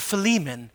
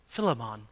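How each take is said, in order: First: It is said the way speakers from America say it. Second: It is said the way speakers from Africa say it. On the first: "or from the United States" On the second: "depending if you're from Africa"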